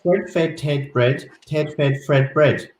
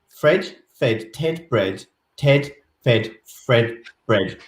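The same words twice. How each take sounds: First: It is said fairly quickly. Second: It is said slowly.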